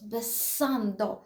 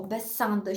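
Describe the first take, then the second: First: "Besando" drawn out slowly with marked stress; emphasised stress. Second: Said in the usual way. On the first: Shown as a demonstration. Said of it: "таке зробити наголос". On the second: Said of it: "закінчення на «о»".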